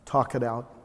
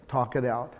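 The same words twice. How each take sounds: The two takes are said the same way.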